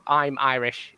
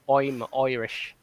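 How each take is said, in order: First: It is said in a plain, unaccented voice. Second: The I sounds become O sounds, Irish-style. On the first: "instead of" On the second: "replace all the I's with O's"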